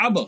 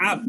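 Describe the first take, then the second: First: আব with the final b bounced into a short echo; qalqalah echo. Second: Said in the usual way. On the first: Shown as a demonstration. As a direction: push off the b at the end of আব. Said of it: "ধাক্কা দিয়া পাল্টা একটা আওয়াজ হবে". (আব-এর শেষে ব ধাক্কা দিয়ে পাল্টা আওয়াজ) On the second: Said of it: "শুধু এমনি পড়লে আমরা বলতাম".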